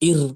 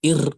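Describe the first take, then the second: No difference in how they are said.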